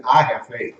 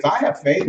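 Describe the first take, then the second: First: Lower, settled statement of faith; firm conviction. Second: Said in the usual way. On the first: Acted. Someone who truly believes, firm conviction. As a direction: say it like a settled fact. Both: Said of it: "You hear the way they say it?".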